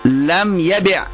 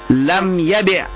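No difference in how they are said.

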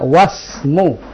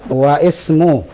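First: Wa runs straight into the s sound. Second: The i of ismu is pronounced separately. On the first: The speaker calls it right. "bacanya wasmu" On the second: The speaker calls it wrong. "Bukan begitu"

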